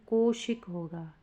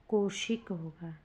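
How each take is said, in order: Both takes have the same delivery.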